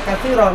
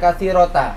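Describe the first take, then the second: First: The word ends with a soft h sound. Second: The word ends with a full ta syllable. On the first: The speaker calls it right. "Itu kok dibaca katsirah" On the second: The speaker calls it wrong. "enggak dibaca katsirota"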